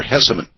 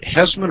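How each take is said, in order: First: "Hesseman" said in three syllables, HESS-uh-man. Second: "Hessman" said in two syllables, HESS-man. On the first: Host checking guest's last name, "Hesseman" in three syllables. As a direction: add a short middle vowel to "Hesseman". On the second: Host checking guest's last name, "Hessman" in two syllables. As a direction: say "Hessman" with no vowel after the s. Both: Shown as a demonstration. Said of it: "how should I sh-, say your last name".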